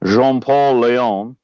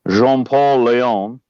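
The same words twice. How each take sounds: First: The name is said in a French accent. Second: The same.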